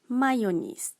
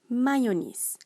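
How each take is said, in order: The two takes are said the same way.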